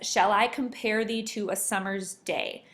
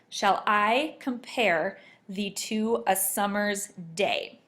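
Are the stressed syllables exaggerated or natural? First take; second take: natural; exaggerated. First: The line is read with natural, even stress. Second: Every other syllable is stressed in an exaggerated way.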